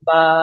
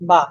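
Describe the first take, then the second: First: The vowel is drawn out longer. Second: The vowel is said short.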